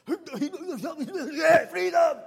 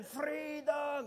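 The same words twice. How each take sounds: First: Big Scottish battle-cry yell, very high and loud with a laugh; excited Scottish roar. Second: A higher shouted try at the Scottish freedom roar, not quite right; attempted Scottish yell. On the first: Retold or imitated. Preacher shows how an excited Scot sounds, Scottish freedom roar. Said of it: "it sounds pretty much like this". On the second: Shown as a demonstration. Preacher retries the Scottish shout for the crowd, mock yell. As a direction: give the roar another go. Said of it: "Do that again".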